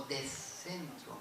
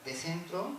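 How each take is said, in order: First: "de centro" very slow, the S swallowed into a long C; "O de centro" drawn out with a geminate consonant; slow contrasting take. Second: "de centro" with a rising end and an ordinary S; a plain "de centro", lifting at the end; "de centro" asked, tune going up; first take, rising. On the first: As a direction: stretch "de centro" with an aspirated S. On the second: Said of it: "tienen significado distinto". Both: Shown as a demonstration.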